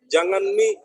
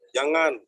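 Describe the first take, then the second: First: Kendari dialect "Jangan mi", lifted at the end; Kendari accent. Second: Said in the usual way. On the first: Shown as a demonstration. Lecturer shows students the Kendari particle mi, Kendari accent. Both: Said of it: "Itu logat Kendari ya".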